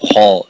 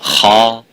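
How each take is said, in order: First: The vowel is rounded with lips pushed forward. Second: The vowel is open with the mouth opened vertically. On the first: The speaker calls it wrong. "they put their lips and their mouth forward to pronounce ha" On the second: The speaker calls it right. "open your mouth slightly up vertically"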